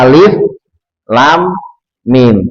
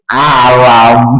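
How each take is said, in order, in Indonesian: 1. Tiga nama huruf dibaca terpisah, masing-masing berhenti. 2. Huruf-huruf itu disambung menjadi satu kata pendek. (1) "ternyata kita baca alif lam mim di wakof" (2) "wah kamu salah"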